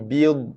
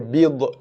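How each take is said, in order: First: The final consonant ends without any bounce. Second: The final consonant ends with a bouncing echo. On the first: The speaker calls it right. "B dengan dha mati" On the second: The speaker calls it wrong. "tapi ramai yang menqalqalahkan dia ... itu bacaan yang salah"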